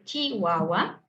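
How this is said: It has a central-southern Mexican pronunciation. "en el centro hacia el sur, tenemos esta pronunciación de Chihuahua"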